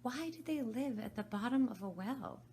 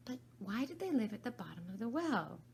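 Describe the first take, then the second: First: Repeated question. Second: Said in the usual way. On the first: Acted. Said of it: "repeated her question".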